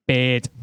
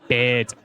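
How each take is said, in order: First: "Beard." as Scouse "bird", said /pɪd/; Scouse accent. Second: "Beard." again, Scouse bird, /pɪd/; Scouse bird repeated; Scouse accent. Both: Shown as a demonstration. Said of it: "my favourite word in a Scouse accent is bird".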